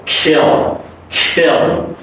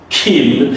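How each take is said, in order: First: "kill" with a gliding vowel into a dark L. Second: "kill" with a long ee, like "keel"; tense the vowel of "kill" into ee; wrong vowel demo. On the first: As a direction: slide from the i of "kill" through uh into L. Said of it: "So it would be like K". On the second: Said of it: "So this is not kill". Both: Shown as a demonstration.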